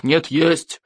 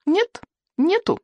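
First: Insistent chieftain. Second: Put-on high, slow childlike objection; contradicting boy. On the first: Chieftain arguing back at the boy, firm contradiction. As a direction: counter firmly in the grown-up voice. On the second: Boy arguing back at the chieftain, high stubborn contradiction. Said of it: "возразил Икинг". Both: A narrator's reading.

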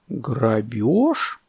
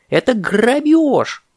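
First: Thoughtful boa. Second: High, slow indignant cry; parrot's outcry. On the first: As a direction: mull the word over slowly. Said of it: "задумчиво сказал удав". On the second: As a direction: cry out ГРАБЁЖ, stretching it. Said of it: "закричал попугай". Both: Acted.

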